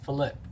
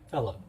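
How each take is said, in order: First: The stress is on the second syllable. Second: The stress is on the first syllable. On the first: The speaker calls it right. "with the stress on the second syllable" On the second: The speaker calls it wrong. "instead of Philip"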